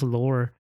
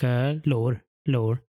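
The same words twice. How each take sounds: First: The word is said with a flat pitch. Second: The word is said with a marked pitch tone. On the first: The speaker calls it wrong. "It's not even just Lore" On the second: The speaker calls it right. "There's a weird tone in there"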